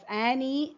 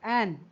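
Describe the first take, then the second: First: The name is said with two syllables. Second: The name is said with one syllable. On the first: The speaker calls it wrong. "should not be pronounced as Annie" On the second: The speaker calls it right. "rather it's Anne"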